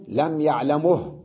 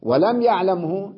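First: يعلمه slowly as ya'lamuh; u on the م of يعلمه, stop on h; pause with vowel transfer. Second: يعلمه slowly as ya'lam-hu; original full form. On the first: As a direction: end يعلمه in mu plus bare ه. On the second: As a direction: still م, voiced hu in يعلمه. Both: Shown as a demonstration. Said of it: "وكذلك".

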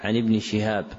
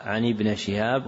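First: ابن said "ibni"; kasra on nun. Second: ابن said "ibna"; fatha on nun. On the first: Teacher repeating the correction, ابن with final kasra. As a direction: end ابن in a short "i". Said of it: "والصواب". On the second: Teacher repeating the printed error, ابن with final fatha. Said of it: "وقع". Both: Shown as a demonstration.

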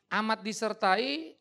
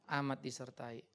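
First: Slow, louder, each word drawn out on Amat disertai; drawn-out emphatic Amat disertai; stressed choice. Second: Said in the usual way. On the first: Shown as a demonstration. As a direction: call out Amat disertai as an option to the crowd. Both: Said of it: "Saudara merasa disertai Tuhan".

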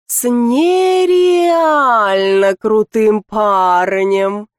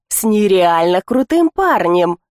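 First: Drawling. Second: Said in the usual way. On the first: Acted. Lika drawls about her boyfriend, slowly stretched. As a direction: drag out «С нереально крутым парнем» dreamily. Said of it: "тянет Лика". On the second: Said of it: "Закрутила роман".

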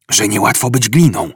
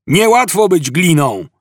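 First: Said in the usual way. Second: High-pitched complaining call; shout. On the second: A narrator's reading. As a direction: call it out from a distance. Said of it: "Po chwili rozległ się okrzyk". (podniesiony, żałosny okrzyk)

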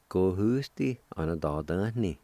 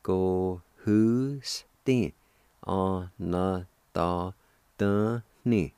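First: Said in the usual way. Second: Both parts together, each syllable held separately. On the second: Shown as a demonstration. Teacher puts both parts of kindred together, syllable by syllable. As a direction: sound out the whole word slowly, piece by piece. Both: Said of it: "And together".

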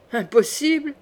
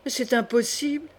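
First: Higher, scornful questioning echo; strident mocking echo. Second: Mild dismay, rising at the end; disbelief. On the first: A narrator's reading. Brother mocking his sister's disbelief, strident echo. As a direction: throw the word back sharply, pitch raised. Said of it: "dit Charles avec un rire strident". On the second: Acted. Sister refusing to believe her mother guilty, dismayed disbelief. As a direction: protest in disbelief without raising the volume.

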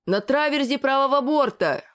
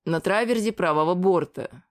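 First: Raised-pitch call relayed to the deck; higher, projected lookout's call. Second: Calm, even hint to a partner; unhurried, matter-of-fact aside; calm prompt. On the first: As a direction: sing out the report to those below. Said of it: "Продублировал я вниз". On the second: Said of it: "Спокойно подсказал Слав". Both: A narrator's reading.

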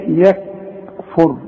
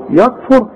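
First: Slow, careful يكفر with a thin "ya"; corrected, drawn-out يكفر with front vowel; correct light ya. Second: Raised, thickened "ya" in يكفر; wrong heavy "yok-fur" for يكفر; heavy ya, mistaken. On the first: Shown as a demonstration. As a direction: separate a light "yak" from "fur" in يكفر. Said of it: "لا، يكفر". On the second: Retold or imitated. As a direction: imitate the error, darkening the start of يكفر. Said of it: "تقول لي يا".

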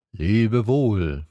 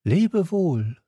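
First: Drawn, even farewell from a fox; fox character. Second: Put-on higher-pitched young hero's farewell; light, high goodbye; Little Prince. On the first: Fox answers the prince's goodbye, in a level voice. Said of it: "sagte der Fuchs". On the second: Prince bids the fox farewell, in a high voice. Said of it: "sagte er". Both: A narrator's reading.

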